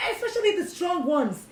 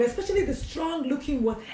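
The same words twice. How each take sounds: First: Especially the strong ones, pitched higher, stressing especially; higher emphasis. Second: Said in the usual way. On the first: Shown as a demonstration. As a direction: lift it up to insist.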